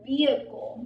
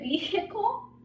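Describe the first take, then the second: First: The H sound is silent. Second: The H sound is pronounced. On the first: The speaker calls it right. "It's vehicle because we are not, right? We are not pronouncing it" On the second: The speaker calls it wrong. "is it vehicle? No, right?"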